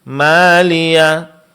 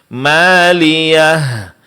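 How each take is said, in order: No difference in how they are said.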